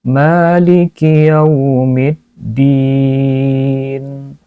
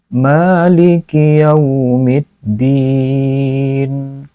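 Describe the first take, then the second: No difference in how they are said.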